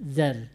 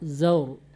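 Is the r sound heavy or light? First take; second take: light; heavy. First: The r sound is light and thin. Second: The r sound is heavy and thick. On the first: The speaker calls it wrong. "Jangan tipis" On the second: The speaker calls it right. "dia tebal. Tebal bacanya"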